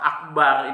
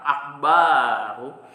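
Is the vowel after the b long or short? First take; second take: short; long. First: The vowel after the b is short. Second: The vowel after the b is long. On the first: The speaker calls it right. "yang seharusnya tidak panjang" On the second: The speaker calls it wrong. "ba-nya kita baca panjang"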